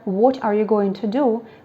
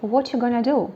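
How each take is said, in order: First: Each word is pronounced clearly and separately. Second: The words run together with dropped sounds.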